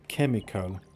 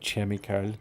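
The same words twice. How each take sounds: First: The first consonant is a hard k sound. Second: The first consonant is a soft ch sound. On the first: The speaker calls it right. "On prononce pas le H" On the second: The speaker calls it wrong. "c'est pas chemical"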